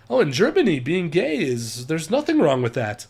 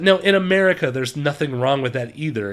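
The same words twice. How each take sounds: First: Mock German accent, lilting; amateur German-accented English. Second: Said in the usual way. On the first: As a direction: imitate a German gently explaining. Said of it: "my terrible German accent".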